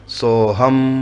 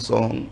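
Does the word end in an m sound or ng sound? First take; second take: m sound; ng sound. First: It is said slowly, ending with closed lips. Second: It is said quickly, ending in ng. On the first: The word stands on its own, unjoined. "यदि आप आराम से बोलेंगे" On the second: The sounds are joined together. "यदि आप जल्दी जल्दी बोलेंगे"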